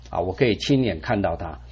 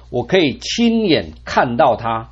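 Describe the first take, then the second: First: Hushed, reflective echo; soft lower echo. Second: Confident declaration, 亲 stressed; emphatic take. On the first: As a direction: lower and softer repeat, 亲 falling. Echoed softly, lower. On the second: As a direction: stress 亲 in 亲眼, said full-voiced. Job's hope, then echoed. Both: Shown as a demonstration.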